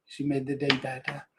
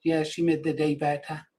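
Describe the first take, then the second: First: Softer, a fond echo of the line; tender and soft. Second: Said in the usual way. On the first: Real, not acted. Grandfather echoing how his granddaughter made his day, softer and tender. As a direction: let it fall quietly, full of fondness.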